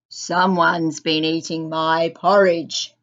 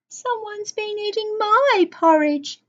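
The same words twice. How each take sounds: First: The voice is loud, deep and gruff. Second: The voice is of medium size and loudness. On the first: "he said in a loud, gruff voice" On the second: "echoed Mother Bear in a medium voice"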